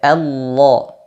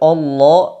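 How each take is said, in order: First: The opening vowel is light and thin. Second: The opening vowel is heavy and thick. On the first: The speaker calls it right. "hamzah wasalnya dibaca dengan tipis" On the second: The speaker calls it wrong.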